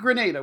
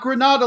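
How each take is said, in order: First: It is pronounced like the island country's name. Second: It is pronounced like the Spanish city's name. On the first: It names the island country. The speaker calls it right. "We want to make sure we get the island country pronunciation right" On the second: It names the city in Spain. The speaker calls it wrong. "not Grenada like the Spanish city"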